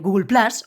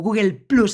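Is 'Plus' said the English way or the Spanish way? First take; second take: English; Spanish. First: Plus is said with an English-style vowel. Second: Plus is said with a Spanish-style vowel. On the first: The speaker calls it right. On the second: The speaker calls it wrong.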